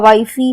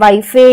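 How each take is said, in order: First: The word ends with an extra 'ee' vowel. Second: The word ends with an extra 'e' vowel. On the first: "हम ऐसा हम इसे नहीं पढ़ते हैं" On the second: "हम ऐसा हम इसे नहीं पढ़ते हैं"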